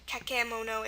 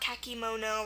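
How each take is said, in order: First: The middle vowel is a clear eh sound. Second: The middle vowel is a clear ee sound. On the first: "or kakemono" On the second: "not kakimono"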